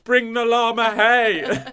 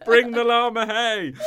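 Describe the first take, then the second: First: Slow, high, loud llama demand. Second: Slow, high, laughing llama demand. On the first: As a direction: drawl it like a diva llama. Animal voice continued. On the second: Repeated animal voice. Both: Pretend.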